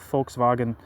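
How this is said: The word is pronounced the German way.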